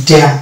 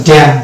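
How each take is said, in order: The two takes are said the same way.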